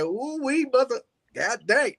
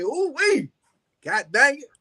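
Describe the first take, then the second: First: Quick playful catchphrase delivery. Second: Higher clean take on the catchphrase. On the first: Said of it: "[name] has a saying, he be like". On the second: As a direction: say it playful without the cuss. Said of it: "I didn't wanna cuss". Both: Retold or imitated.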